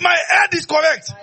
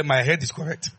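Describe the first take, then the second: First: High loud shout; shouted declaration. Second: Said in the usual way. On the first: Shown as a demonstration. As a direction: shout it out with the congregation. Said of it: "Hey, say it". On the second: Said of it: "Say that and clear".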